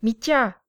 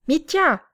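First: A firm call for his brother, a little higher. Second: Much higher, louder yell of the name; full shout. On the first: Grisha calls his brother while holding the intruder, raised call. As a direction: call Mitya over, raised but held back. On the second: Grisha yells for his brother a second time, full shout. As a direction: shout Mitya at full stretch. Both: A narrator's reading. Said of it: "se mit à crier".

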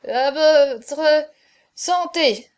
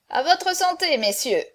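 First: Loud, halting, broken-up toast; tipsy stuttered toast, raised and halting; drunken stammer. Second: High, hearty toast to the company; raised toast. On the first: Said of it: "balbutia Chaverny". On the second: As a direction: call out a toast, lifted pitch. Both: A narrator's reading.

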